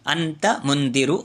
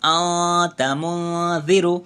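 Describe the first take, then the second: First: The n sound is pronounced clearly. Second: The n sound is hidden as a nasal hum. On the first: The speaker calls it wrong. "నార్మల్గా చదువుతాము" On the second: The speaker calls it right. "ముక్కులో దాచేసి చదవవలసి ఉంటుంది"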